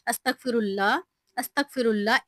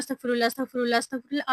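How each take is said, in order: First: अस्तगफिरुल्लाह said slowly, each syllable clear; slow careful recitation. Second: अस्तगफिरुल्लाह rattled off fast, words run together; rushed recitation. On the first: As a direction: take your time over every part of अस्तगफिरुल्लाह. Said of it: "आपने आराम-आराम से पढ़ना है". (आराम-आराम से, एक-एक लफ्ज़ साफ़ अस्तगफिरुल्लाह) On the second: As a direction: gabble the अस्तगफिरुल्लाह like a hurried chant. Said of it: "वो ना बहुत स्पीड में पढ़ रहे होते हैं". (तेज़ी से, जल्दी-जल्दी अस्तगफिरुल्लाह पढ़ना) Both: Shown as a demonstration.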